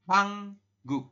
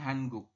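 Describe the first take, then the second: First: The first syllable ends with an ng sound. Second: The first syllable ends with an n sound. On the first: The speaker calls it right. "Jadi kita membacanya adalah Hanguk" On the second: The speaker calls it wrong. "bukan Hanguk"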